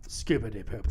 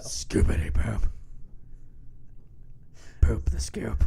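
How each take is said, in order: First: Said in the usual way. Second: Whispered creepy lyric; slasher killer. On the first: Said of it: "you gotta say it with some gusto". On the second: Pretend. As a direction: breathe it like a serial killer. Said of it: "Sound like a serial killer".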